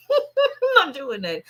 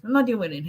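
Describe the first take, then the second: First: Laughing it off, slower and higher; amused no, laughter in the voice; laughing refusal. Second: Said in the usual way. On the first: Real, not acted. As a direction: say it through a laugh, shaking your head.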